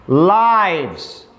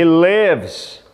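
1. A vogal é um som longo de 'eye'. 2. A vogal é um som curto de 'ih'. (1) "Aqui é o plural da palavra vida" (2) "o som é diferente, se escreve igual, mas pronuncia diferente, porque aqui é o verbo viver ou morar"

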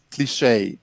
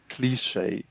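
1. A sílaba tônica fica na última sílaba. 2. A sílaba tônica fica na primeira sílaba. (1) "O inglês americano tende a colocar a sílaba tônica onde está em francês" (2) "No inglês britânico é mais anglicizado e a sílaba tônica está na primeira"

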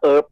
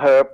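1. คำนี้ขึ้นต้นด้วยสระ ไม่มีเสียง h 2. คำนี้ขึ้นต้นด้วยเสียง h ที่ได้ยินชัดเจน

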